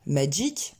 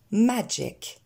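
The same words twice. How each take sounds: First: "magic" ending in a long French ee; wrong vowel. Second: "magic" ending in an è-like sound, majek; higher "magic", first syllable stressed, relaxed ending; correct vowel. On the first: Teacher showing what not to say, magic en I, mispronunciation. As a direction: say "magic" like majeek. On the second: Teacher giving the right version with E, correct pronunciation. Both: Shown as a demonstration. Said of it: "on ne dira pas magic en I".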